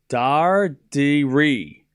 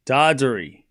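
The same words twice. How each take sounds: First: Dardiri very slowly as DAR, dee, REE; both R's sounded. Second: Said in the usual way. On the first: Shown as a demonstration. Showing chat the two R's, slow split pronunciation. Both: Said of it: "There's two R's".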